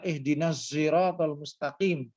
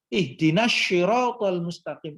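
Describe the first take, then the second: First: Siratal begins with a z sound. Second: Siratal begins with an sh sound. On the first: "Logat Mesir dan menggunakan za" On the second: "di makhrajnya bagian pipi. Sya"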